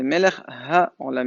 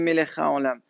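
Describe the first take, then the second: First: It is said clearly, with the h sound. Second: It is said fast, dropping the h sound. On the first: The speaker calls it right. "C'est ... il y a un He" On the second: The speaker calls it wrong. "s'il va vite, il dit"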